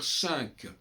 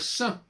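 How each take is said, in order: First: The final consonant is pronounced. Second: The final consonant is left silent. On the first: "pourquoi est-ce qu'on doit dire cinq?" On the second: "on ne prononce pas la consonne"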